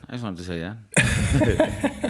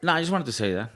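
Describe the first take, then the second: First: Slow. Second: Said in the usual way. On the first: Shown as a demonstration. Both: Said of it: "repeats the same line".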